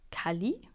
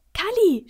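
First: Puzzled. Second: Very high, loud delighted cry; beaming excitement. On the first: Man who doesn't know the character, puzzled. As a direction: echo the name, wondering. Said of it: "wundert sich der Mann". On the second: Boy naming today's story, thrilled. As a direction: burst out with the name. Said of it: "strahlt Max". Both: A narrator's reading.

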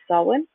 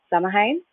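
First: Samhain said "SOW-in", m silent; alternative pronunciation. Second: Samhain said "SAM-a-hayn", as spelt; phonetic pronunciation. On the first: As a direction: pronounce Samhain in two syllables, like "sow-in". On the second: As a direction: pronounce Samhain in three syllables, h sounded. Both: Shown as a demonstration. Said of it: "So many people say it, different ways".

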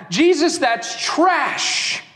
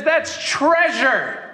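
First: Slow, dismissive judgment; slow contemptuous dismissal; scornful verdict. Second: Slow, tender declaration; slow gentle affirmation; loving verdict. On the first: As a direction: spit out the verdict slowly. Judging voice of the crowd. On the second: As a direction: say it slowly with wonder and love. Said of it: "And Jesus looks at her and says". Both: Acted.

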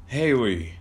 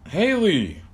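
First: Said in the usual way. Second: High call across the house. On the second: Acted. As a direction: call for Haley, pitched up and louder.

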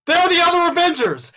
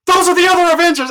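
First: High, loud excited yell in a packed theater. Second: High, loud, fast excited yell. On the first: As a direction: shout it out to the whole crowd. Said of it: "I yell out". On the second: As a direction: call it out over the crowd. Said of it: "and I'm just like". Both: Retold or imitated.

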